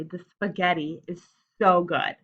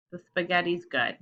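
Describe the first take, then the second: First: "so" punched louder for emphasis; exclamation with feeling. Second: Said in the usual way. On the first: Shown as a demonstration. Teacher correcting a boring reading, expressive stress on "so". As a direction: put the feeling on "so". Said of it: "I'm not saying that with an exclamation point". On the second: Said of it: "That's boring".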